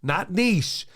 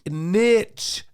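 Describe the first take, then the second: First: It uses the newer fashionable pronunciation. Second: It uses the traditional dictionary pronunciation. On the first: This is the trendy pronunciation people adopted lately. The speaker calls it wrong. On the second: This is the proper dictionary pronunciation. The speaker calls it right. "It is niche"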